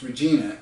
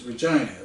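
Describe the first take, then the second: First: Regina said ruh-JEE-nuh, American style; Regina with the long ee, as an American reads it. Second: Regina said ruh-JYE-nuh, rhyming with vagina; Regina with the long i sound; Canadian Regina. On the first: American reading the city name, Regina with a long ee. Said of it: "I don't know that Canadians pronounce Regina as". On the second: Canadian way of saying the capital, Regina as ruh-JYE-nuh. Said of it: "which rhymes with". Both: Shown as a demonstration.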